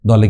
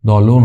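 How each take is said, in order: First: The word ends in an e vowel. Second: The word ends in an o vowel. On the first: "দলে কিন্তু দলও না" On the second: "দলও না"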